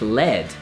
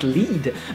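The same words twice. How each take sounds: First: The vowel is short, rhyming with red. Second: The vowel is long, rhyming with bead. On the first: "which do sound like red" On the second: "bead, which sounds like lead"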